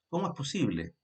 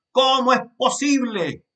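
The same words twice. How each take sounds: First: Said in the usual way. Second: «¿Cómo es posible?» exclaimed much higher and louder; exclamation. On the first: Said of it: "No es lo mismo". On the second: Shown as a demonstration. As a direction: throw it out as a loud astonished exclamation. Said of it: "como signos de exclamación".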